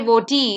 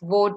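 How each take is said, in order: First: The final vowel is pronounced aloud. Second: The final vowel is not pronounced. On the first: The speaker calls it wrong. "you don't say voti" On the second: The speaker calls it right. "the E becomes silent"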